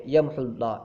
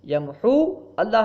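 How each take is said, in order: First: "یمحو اللہ" as one word with short u; joined reading. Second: "یمحو" with long high uu, then "اللہ" apart; separated words. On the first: Teacher shows joined reading, "یمحو اللہ" without the waw. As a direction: link "یمحو اللہ", dropping the long waw. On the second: Teacher shows the written waw, "یمحو اللہ" separated. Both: Shown as a demonstration. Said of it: "جب ملا کے پڑھیں گے".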